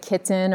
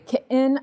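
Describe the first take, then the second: First: The middle consonant is a clear t. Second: The middle consonant is a glottal stop. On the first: "I don't say kitten" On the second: "I say kitten, It's that middle sound, that's the glottal stop"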